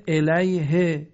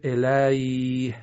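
First: الیه slow and louder, "ilayhi"; final kasra sounded. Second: الیه drawn out, ending on bare h, "ilayh"; pausal sukun. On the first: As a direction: end الیه on a short "i" after h. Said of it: "آخرش کسره آمده". (الیه با کسرهٔ ها، «اِلَیهِ») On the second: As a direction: drop the vowel after h in الیه. (الیه کشیده با های ساکن) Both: Shown as a demonstration.

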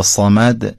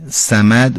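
First: صمد with a heavy, emphatic ص; Arabic-style full ص in صمد; Arabic emphatic sad. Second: صمد with a thin, plain s for ص; Persian-style light ص in صمد; Persian pronunciation. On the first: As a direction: thicken the ص and darken the vowel in صمد. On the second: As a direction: say صمد as if written with س. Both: Shown as a demonstration. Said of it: "معناش خیلی فرق".

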